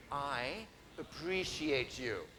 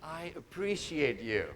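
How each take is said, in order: First: Plain. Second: Slow and softer, sincere; mean every word of I appreciate you. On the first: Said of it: "say it like you mean it". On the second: Speaker showing the audience how to say it sincerely. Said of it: "This is how you'll have to say it". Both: Shown as a demonstration.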